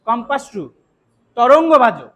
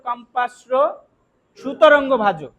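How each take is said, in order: First: The 'su' sound ends the first word. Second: The 'su' sound begins the second word. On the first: The speaker calls it right. "যদি আপনি একসাথে উচ্চারণ করেন তাহলে বলতে হবে" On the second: The speaker calls it wrong. "ওই জায়গায় আবার সু বলতে পারবেন না ... এটা ভুল।"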